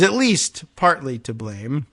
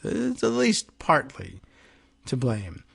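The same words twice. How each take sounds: First: Said in the usual way. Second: Timidly conceding a small point; mock reasonable. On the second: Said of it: "in their quest to be reasonable".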